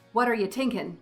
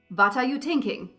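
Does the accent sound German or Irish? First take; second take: Irish; German. First: It is spoken with an Irish accent. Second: It is spoken with a German accent. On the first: The character is Irish. "Another shift to help with the Irish melody" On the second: The character is German. "That sounds pretty German"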